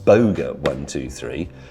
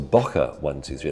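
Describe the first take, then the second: First: The name's middle consonant is a g sound. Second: The name's middle consonant is a k sound. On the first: The speaker calls it wrong. "I've actually read his name incorrectly" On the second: The speaker calls it right. "It's a Q, not a G"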